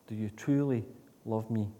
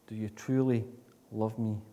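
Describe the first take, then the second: No difference in how they are said.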